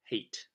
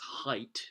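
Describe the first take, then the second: First: The name rhymes with the word hate. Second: The name rhymes with the word height. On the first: The speaker calls it wrong. "not hate" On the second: The speaker calls it right. "actually it's height"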